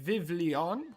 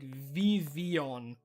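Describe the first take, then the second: First: The name is said with an English pronunciation. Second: The name is said with a French-like pronunciation. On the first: The speaker calls it wrong. "I used to say Vivlion" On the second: The speaker calls it right. "it's like Vivian or something, because it's it's it's French"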